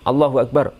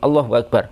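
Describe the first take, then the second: No difference in how they are said.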